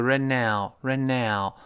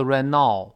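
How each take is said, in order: First: "right now" with "now" as an open ow, like meow; correct "now" vowel. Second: "right now" with "now" narrowed towards "naw"; mispronounced "now". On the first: Teacher modelling "right now" for students, open ow. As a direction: say "right now" opening wide into "ow". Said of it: "特别注意后面那个right now". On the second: Teacher showing learners the mistake in "right now", mispronounced. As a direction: say "right now" wrongly, "now" rhyming with "law". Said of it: "不要读right now". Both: Shown as a demonstration.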